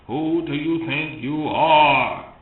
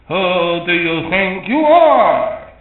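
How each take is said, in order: First: It is said in his natural voice. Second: It is said in a put-on voice.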